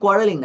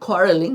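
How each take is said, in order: First: The first consonant is a plain unaspirated k. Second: The first consonant is an aspirated kh. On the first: The speaker calls it wrong. "কোয়ারেলিং না" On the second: The speaker calls it right. "ক উচ্চারণ হবে না, খ"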